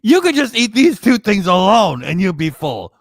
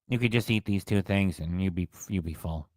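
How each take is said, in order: First: It is said lively, with high energy. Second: It is said flatly, with low energy.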